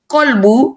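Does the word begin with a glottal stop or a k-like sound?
k-like sound. It starts with a k-like consonant, Gulf-style.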